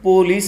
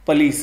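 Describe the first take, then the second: First: The first vowel is a full 'o' sound. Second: The first vowel is short and reduced. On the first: "పోలీస్ అంటూ ఉంటారు" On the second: "పలీస్ అనేది original pronunciation"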